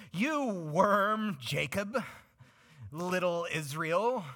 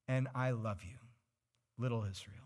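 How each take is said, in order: First: Loud, scornful higher voice calling Israel a worm; harsh, contemptuous God. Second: Friendly. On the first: God belittling his people in a harsh scornful tone. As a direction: sneer it out with contempt. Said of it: "I don't think he said it quite in that tone of voice". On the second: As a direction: say it like a loving parent. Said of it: "That one's a little more friendly". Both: Acted.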